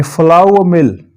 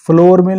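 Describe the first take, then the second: First: फ्लावर mill with "flau-a", no r; correct pronunciation. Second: फ्लोर mill with a long "o" and r; wrong pronunciation. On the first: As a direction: open फ्लावर into "ow-a" before mill. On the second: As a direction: say फ्लोर like the floor underfoot. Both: Shown as a demonstration. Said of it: "फ्लोर mill नहीं होगा".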